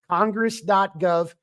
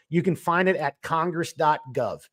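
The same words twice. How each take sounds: First: "Congress dot gov" drawn out with weight on "dot"; slow careful dictation. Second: Said in the usual way. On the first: Shown as a demonstration. Repeating the web address slowly so listeners can write it down.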